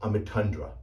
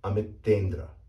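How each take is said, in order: First: The middle syllable has a 'u' vowel, 'tun'. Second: The middle syllable has an 'e' vowel, 'ten'. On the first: The speaker calls it wrong. "I've actually heard this name pronounced Amitundra, which is not correct at all" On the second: The speaker calls it right. "this name is correctly pronounced Amitendra"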